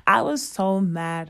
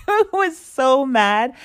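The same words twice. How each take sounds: First: Said in the usual way. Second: Higher, louder and slow, laughing through it; emphatic, laughing. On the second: Real, not acted. Recalling the useless shop, loud laughing emphasis. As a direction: stretch it out with a laugh in disbelief. Repeats the line twice.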